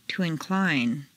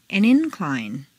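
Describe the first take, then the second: First: InCLINE, stressed on the second syllable. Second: INcline, stressed on the first syllable. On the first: Teacher models verb "incline", second-syllable stress. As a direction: hit CLINE in "incline". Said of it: "to the second syllable". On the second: Teacher models noun "incline", first-syllable stress. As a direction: hit IN in "incline". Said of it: "first syllable for nouns". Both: Shown as a demonstration.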